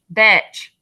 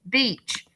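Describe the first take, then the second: First: The vowel is a short 'eh' sound. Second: The vowel is a long 'ee' sound. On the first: The speaker calls it wrong. "I'm going to try it with eh" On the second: The speaker calls it right. "now let's try it with the long E sound"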